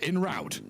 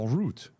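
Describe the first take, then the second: First: It is said with an American pronunciation. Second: It is said with a French pronunciation. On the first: The speaker calls it wrong. "in America they say" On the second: The speaker calls it right. "it's a French phrase"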